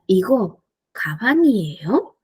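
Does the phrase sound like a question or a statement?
question. The pitch moves like a question. It asks whether this is a bag. "Si quiero mi pregunta diría"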